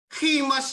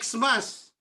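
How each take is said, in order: First: The word begins with a harsh 'kh' sound. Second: The word begins with an 'eks' sound. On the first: The speaker calls it right. "Khimas yun. Galing sa Greek kasi ito" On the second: The speaker calls it wrong. "hindi siya Xmas"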